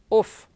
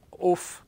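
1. La vocale O è aperta. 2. La vocale O è chiusa. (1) "solita O aperta ad arco"

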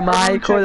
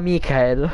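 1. Il nome si pronuncia con suoni inglesi. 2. Il nome si pronuncia con suoni italiani. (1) "Dopo un tot di anni ha capito che si dice Michael" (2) "E Michael di GTA lo chiamava Michael"

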